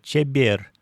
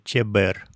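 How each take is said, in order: First: The b before e is softened. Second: The b before e stays hard. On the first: This is how most native speakers say it. "произносится «чебер»" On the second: This is the textbook pronunciation. "вместо «чебер»"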